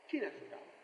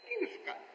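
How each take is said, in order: First: Softer, lower sigh; helpless, hushed question; quiet lament. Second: Much higher, soft, plaintive; high plaintive cry. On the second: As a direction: lift it into a pleading wail. Repeated lament, pitched up. (ψηλό παραπονεμένο παράπονο) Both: Acted.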